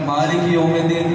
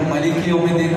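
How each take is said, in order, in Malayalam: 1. ആദ്യ വാക്കിന്റെ ആദ്യ സ്വരം നീളമുള്ളതാണ്. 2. ആദ്യ വാക്കിന്റെ ആദ്യ സ്വരം ചെറുതാണ്.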